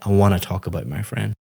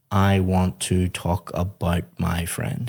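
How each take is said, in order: First: "I wanna talk about my friend" quick, with "wanna" run together; fast relaxed native linking on "wanna"; connected speech. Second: "I want to talk about my friend" slow, every word separate, want and to said in full; careful unlinked speech. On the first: Teacher to student, showing how natives link words: quick and run together. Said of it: "You'd say". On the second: Teacher to student, showing the stiff version: slow, fully separated words. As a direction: pronounce "want to" as two clear words, unhurried. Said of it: "we wouldn't say". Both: Shown as a demonstration.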